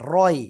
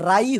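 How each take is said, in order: First: The r sounds heavy and thick. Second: The r sounds light and thin. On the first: The speaker calls it right. "রয় হবে, রয়। র মোটা" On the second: The speaker calls it wrong. "ফাআগ রাই হয়ে গেছে"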